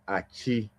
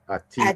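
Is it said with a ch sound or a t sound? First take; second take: ch sound; t sound. First: It is said in a regional form, with ch. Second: It is said in the standard form, with t.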